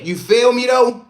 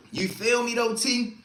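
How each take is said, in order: First: Loud call-out. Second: Said in the usual way. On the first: Real, not acted. Repeating a question louder for chat.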